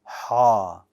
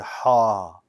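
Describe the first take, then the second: First: The sound is heavy and bold. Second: The same.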